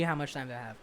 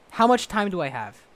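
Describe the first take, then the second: First: Softer, lower muttered repeat; quiet deadpan repeat. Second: Said in the usual way. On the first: Real, not acted. Vlogger repeating the question quietly to himself, deadpan. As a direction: drop it down and say it again under your breath.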